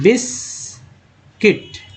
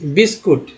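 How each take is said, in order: First: The second syllable has an 'i' vowel, 'biskit'. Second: The second syllable has a 'u' vowel, 'biskut'. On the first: This is the pure, standard way to say it. The speaker calls it right. "इसका शुद्ध उच्चारण होता है बिस्किट" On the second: This is the habitual everyday way people say it. The speaker calls it wrong. "बचपन से लोग यही बोलते आ रहे"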